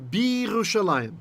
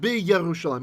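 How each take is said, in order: First: No 'y' consonant is heard after the 'b'. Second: A 'y' consonant is heard after the 'b'. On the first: The speaker calls it right. "So I say Bi Yerushalayim" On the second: The speaker calls it wrong. "not not Bi Yerushalayim. I hear that all the time. That's not right"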